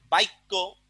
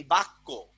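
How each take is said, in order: First: বাক্য said "baikko", i glide before kk; epenthetic pronunciation. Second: Said in the usual way. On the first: Shown as a demonstration. Teacher shows how it is spoken, epenthetic i. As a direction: say বাক্য with "bai" as first syllable. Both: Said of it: "এটাকে কি বলে?".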